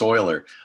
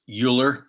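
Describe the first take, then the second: First: The name is said unlike its spelling suggests. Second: The name is said the way it is spelled. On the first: The speaker calls it right. "it looks like it's Euler, but it's not" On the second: The speaker calls it wrong. "I said it wrong"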